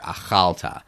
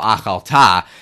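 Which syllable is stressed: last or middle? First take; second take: middle; last. First: The stress is on the middle syllable. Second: The stress is on the last syllable. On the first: The speaker calls it right. "With the accent on the middle the syllable there" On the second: The speaker calls it wrong. "every accent is supposed to be on the last syllable"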